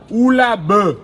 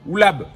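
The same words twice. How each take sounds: First: The final e vowel is pronounced aloud. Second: The final e vowel is left silent. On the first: The speaker calls it wrong. "On ne dit pas oulab pour prononcer le e" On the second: The speaker calls it right. "On dit oulab"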